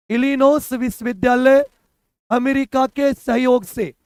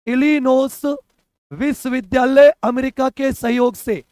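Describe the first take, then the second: No difference in how they are said.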